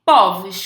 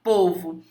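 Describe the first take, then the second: First: Povos with open stressed o, "póvos". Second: Povo with closed stressed o, "pôvo". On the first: Teacher showing the plural, open o in Povos. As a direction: open the first vowel of Povos, as ó, louder. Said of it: "com timbre aberto". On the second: Teacher demonstrating timbre fechado, closed o in Povo. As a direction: keep the first vowel of Povo closed, as ô. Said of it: "você fala com timbre fechado". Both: Shown as a demonstration.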